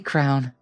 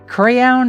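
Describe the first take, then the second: First: It sounds like one syllable, rhyming with town. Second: It has two syllables with a clear y sound. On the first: "I think I should just say crown" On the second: "Crayon at least gets the Y across"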